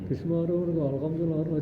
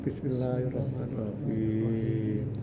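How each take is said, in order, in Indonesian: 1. Diucapkan bablas, tanpa berhenti. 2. Diucapkan santai, dengan jeda pelan-pelan. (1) "itu namanya ya bukan santai" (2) "Santai kan"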